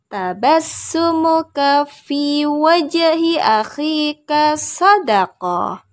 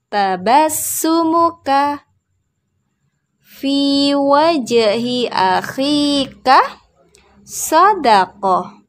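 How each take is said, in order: First: The phrase is spoken joined up in one flow. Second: The phrase is spoken slowly and carefully. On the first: "Sekarang kita gabung"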